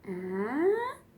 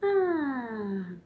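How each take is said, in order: First: The pitch goes up. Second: The pitch goes down.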